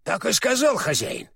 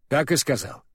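First: Higher-pitched query, lifting "сказал"; questioning check. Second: "Так и сказал" as a short falling statement; plain confirmation. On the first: Owl checks what his master Урфин said, questioningly. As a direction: ask it, peaking on "сказал" then falling. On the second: Урфин answers the owl, confirming matter-of-factly. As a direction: confirm evenly, letting "сказал" drop. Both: Acted.

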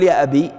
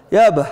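First: Said in the usual way. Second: "أبه" ending in an audible h, "yaabah"; dialect final h. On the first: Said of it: "ما، ما نقول". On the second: Shown as a demonstration. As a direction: close "أبه" on a breathed h. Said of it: "وإنما نقول".

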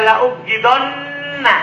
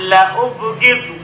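First: La ubghidonna with a doubled, stressed nn; la ubghidonna as the reading students must avoid; wrong reading. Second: La ubghidu read slowly with no doubled n; la ubghidu, plain ending, drawn out; la ubghidu as the right form for students; correct reading. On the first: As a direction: say la ubghidonna, leaning on the added nna. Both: Shown as a demonstration. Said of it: "Tidak dibaca la ubghidonna".

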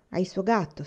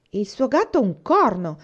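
First: Said in the usual way. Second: Slow, loud indignant outburst, stress on gatto; indignant exclamation. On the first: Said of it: "disse Faith". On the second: A narrator's reading. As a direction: spit out the word gatto in scorn, louder and slower. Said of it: "esclamò Mary indignata". (esclamazione indignata, lenta e più forte, con accento su gatto)

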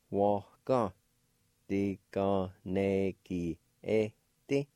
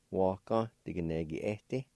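First: "Waka. Diganegi eti." drawn out slowly; slow demo. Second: Said in the usual way. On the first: Shown as a demonstration. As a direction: say it slowly so a learner can follow. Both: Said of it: "like this".

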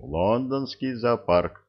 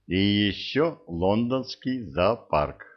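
First: Лондонский said slowly with weight, falling; slow, stressed repeat. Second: Said in the usual way. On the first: Acted. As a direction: lean on Лондонский, slow and deliberate. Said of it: "Именно это я и сказал". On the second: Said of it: "first casual mention".

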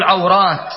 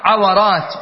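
First: عورات as ʿaw-rāt, w without a vowel; correct diphthong. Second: عورات as ʿa-wa-rāt, w carrying an a; wrong middle vowel. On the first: Teacher gives the right plural, عورات as ʿaw-rāt. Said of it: "وإنما تقول عورات". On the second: Teacher repeats the form to avoid, عورات as ʿa-wa-rāt. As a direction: give عورات an extra syllable: ʿa-wa-rāt. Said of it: "لا تقل في الجمع عورات". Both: Shown as a demonstration.

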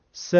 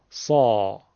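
First: س as a short thin "se"; a light front "se", no throat; light plain sin. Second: سا lower, full from the throat; thick, deep سا with no whistle; heavy sad. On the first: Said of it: "اینطور ببینی". (سِ نازک و ساده) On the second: (سا پرحجم و درشت، بدون سوت) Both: Shown as a demonstration.

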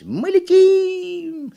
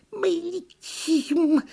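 First: High, loud, very drawn-out cry; elated squealing cheer; yelling monkey. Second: Thin drawn-out turtle peep; squeaking turtle. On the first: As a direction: shriek in delight as a monkey. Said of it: "закричала «Почешись»". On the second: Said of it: "пискнула черепаха". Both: A narrator's reading.

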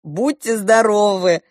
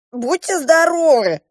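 First: Slow, mild parrot call; lightly voiced parrot repeating; parrot imitation. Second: Higher, eager dwarf voice; bright high dwarf blessing; dwarf's bless you. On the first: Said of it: "попугай Шива ... говорит". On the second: A narrator's reading. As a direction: chirp it like a little dwarf. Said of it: "сказал карлик".

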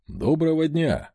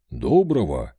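First: Said in the usual way. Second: Low clipped reply, louder; chief's curt greeting. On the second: Acted. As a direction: answer briefly, low and firm.

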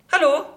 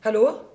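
First: Higher and louder, calling into the line. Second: Said in the usual way. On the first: Acted. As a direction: raise the voice to reach the caller. Calling into a silent phone line.

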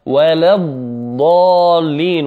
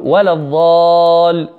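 First: ولا الضالين slowly, ضاد held doubled and heavy; slow correct recitation. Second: ولا الضال with the ضاد rushed, not doubled; teacher mimicking a student error; common mistake. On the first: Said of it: "وهذا الحرف المفخم مشدد". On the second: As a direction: model the wrong quick ضاد. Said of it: "من الأخطاء التي نسمعها يقول". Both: Shown as a demonstration.

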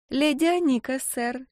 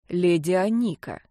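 First: Put-on high, coy little-girl voice; coquettish. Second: Very serious. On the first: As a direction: play the prim little lady. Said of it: "кокетливо произнесла девочка". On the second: Acted. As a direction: repeat it with mock solemnity. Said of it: "со всей серьёзностью повторил Чип".

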